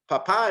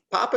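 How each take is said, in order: First: Papa said PA-pa, stress on the first syllable. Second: Papa said pa-PA, stress on the final syllable; stress on last syllable. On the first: Teacher shows dad meaning, papa stressed on the first syllable. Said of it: "papa is a dad". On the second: Teacher shows potato meaning, Papa stressed on the last syllable. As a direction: land firmly on the final PA of Papa. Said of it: "Papa is a potato". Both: Shown as a demonstration.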